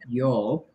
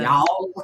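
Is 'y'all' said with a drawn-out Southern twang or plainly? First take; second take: plain; twang. First: It is said plainly, without a Southern twang. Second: It is drawn out with a Southern twang. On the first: "we don't go y'all" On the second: "we go y'all. We get that twang in it as well"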